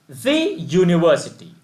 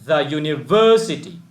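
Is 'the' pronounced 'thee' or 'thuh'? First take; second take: thee; thuh. First: 'The' is said with a long 'ee' vowel. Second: 'The' is said with a short 'uh' vowel. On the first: The speaker calls it wrong. "Then it may be pronounced as the university" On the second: The speaker calls it right. "That is why you pronounce this word as the university"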